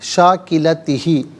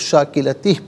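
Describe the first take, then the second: First: The word ends with a final i vowel. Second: The word ends on h without a vowel. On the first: The reading continues without stopping. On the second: The reading stops at this word.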